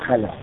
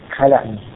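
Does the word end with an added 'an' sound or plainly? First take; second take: plainly; added an. First: The word ends plainly without an 'an' sound. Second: The word ends with an added 'an' sound. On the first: The speaker stops on the word. "در صورت که بخوام وقف کنیم ... اینجا حتما بگیم خلا" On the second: The word is joined to what follows. "اگه بخوام تنوینش بگیم، حرکتش بگیم"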